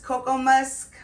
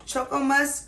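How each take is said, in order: First: "Cocoa" said KOH-koh; "Cocoa Musk" with a hard k opening, KOH-koh. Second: "Choco" said CHOH-koh; CHOCO with a ch sound. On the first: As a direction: start "Cocoa" with k as in coat. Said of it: "I've heard it pronounced Cocoa Musk". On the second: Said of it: "I've heard it pronounced Choco Musk". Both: Shown as a demonstration.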